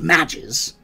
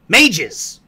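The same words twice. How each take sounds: First: The word does not rhyme with pages. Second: The word rhymes with pages. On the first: The speaker calls it wrong. "not mages" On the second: The speaker calls it right. "it's like pages, mages"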